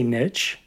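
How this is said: It is said the British way.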